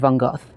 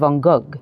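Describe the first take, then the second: First: The name is said the British way. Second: The name is said the French way. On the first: "In the U K, we usually say" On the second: "in France I would say"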